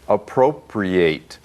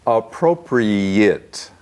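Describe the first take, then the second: First: The final syllable is said like 'ate'. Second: The final syllable is said like 'it'. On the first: It is used as a verb meaning to take property. "If it's a verb, ... then it is appropriate" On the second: It is used as an adjective meaning suitable. "A T E at the end, is pronounced it, not ate"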